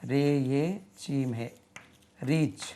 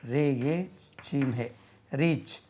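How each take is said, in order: The two takes are said the same way.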